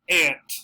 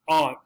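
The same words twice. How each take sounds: First: It is said with an American pronunciation. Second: It is said with a British pronunciation. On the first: "The predominant American pronunciation would be this" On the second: "The other one, ah"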